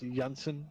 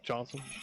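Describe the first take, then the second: First: The name begins with a Y sound. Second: The name begins with a J sound. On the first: This is how it is said in Germany. "my last name is Janssen in Germany" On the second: This is how it is said at home. "instead of Johnson"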